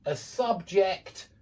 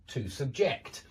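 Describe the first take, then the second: First: Subject stressed on the first syllable, slow; noun stress. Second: Subject stressed on the second syllable, low; verb stress. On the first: Teacher drilling the pattern, first-syllable stress on subject. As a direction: hit SUB in subject. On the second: Teacher drilling the pattern, second-syllable stress on subject. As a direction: land on JECT in subject. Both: Shown as a demonstration. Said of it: "because there is a pattern".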